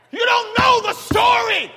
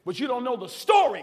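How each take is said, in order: First: 'You don't know the story' shouted loud and high; preacher's shouted refrain; hollered refrain. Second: Said in the usual way. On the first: Acted. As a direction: holler 'know' and let it fall. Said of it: "why I holler when I preach".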